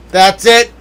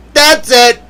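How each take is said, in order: First: A rising "That's it" with a touch of heat; mock anger. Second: A higher, firm falling "That's it"; mock outburst. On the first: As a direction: warn that you've had enough, half joking. Mock anger building again. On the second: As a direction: slam the door on it, in jest. Mock anger peaking.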